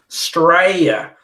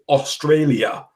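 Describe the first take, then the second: First: It is said in an Australian accent. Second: It is said in a British accent. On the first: "which is the correct pronunciation" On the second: "as the British would say"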